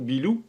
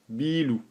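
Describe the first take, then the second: First: The i vowel is plain. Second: The i vowel is emphasized. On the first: It means building. "ça veut simplement dire building" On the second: It means beer. "on accentue le i"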